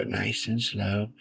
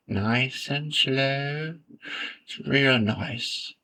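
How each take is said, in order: First: Soft, slow soothing painter voice, lightly put on; Bob Ross. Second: Drawn-out, higher painter voice, lightly put on; Bob Ross. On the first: Gamer mimics a TV painter while drawing a road, soft slow impersonation. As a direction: take it slow and softly, like a TV painter. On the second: Gamer mimics a TV painter while drawing a road, very slow impersonation. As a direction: stretch it right out like a soothing TV painter. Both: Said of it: "trying to do my Bob Ross impersonation".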